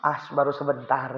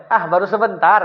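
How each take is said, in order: First: Quiet, soft, low-key reply; hushed, modest understatement; soft downplaying. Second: Said in the usual way. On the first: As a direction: shrug it off gently. Imam softly downplaying. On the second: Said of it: "Ini jawabannya nih".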